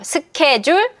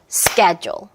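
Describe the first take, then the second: First: Three even syllables with no strong stress. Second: Two syllables with stress on the first. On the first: The speaker calls it wrong. "삼음절로 소리 내는 건데" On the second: The speaker calls it right. "이음절이에요. 강세의 다라 리듬"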